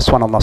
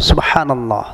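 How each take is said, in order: First: The phrase is said very fast and rushed. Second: The phrase is said slowly and clearly. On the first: The words are not pronounced fully. The speaker calls it wrong. "Ada banyak orang zikir itu cepat banget" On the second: The words are pronounced fully. The speaker calls it right. "Benar-benar terlihat jelas"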